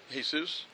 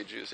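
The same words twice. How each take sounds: First: Jesus said the Spanish way, "hay-SOOS"; Spanish "Jesus", H sound at the start; Spanish pronunciation. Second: Jesus said the English way, "JEE-zus"; English "Jesus", J sound at the start; English pronunciation. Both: Real, not acted. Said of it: "I was gonna say Jesus".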